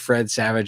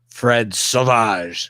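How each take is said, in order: First: The name is said with English pronunciation. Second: The name is said with French pronunciation.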